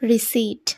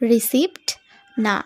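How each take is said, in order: First: No p sound is pronounced before the t. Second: A p sound is pronounced before the t. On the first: The speaker calls it right. "তাহলে আমরা এখানে উচ্চারণ করব" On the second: The speaker calls it wrong. "একেবারেই ভুল হয়ে যাবে।"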